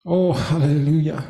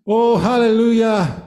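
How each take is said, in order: First: Said in the usual way. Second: Hallelujah lifted and stronger; the congregation gets the second hallelujah, fervent; rising praise. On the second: Acted. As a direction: lift it up with fervour. Preacher repeats praise, louder and higher.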